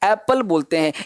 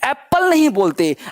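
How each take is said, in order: First: The p sound is single and short. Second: The p sound is doubled and held long. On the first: The speaker calls it right. "Single पी बोलना है" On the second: The speaker calls it wrong. "एप्पल sound गलत है"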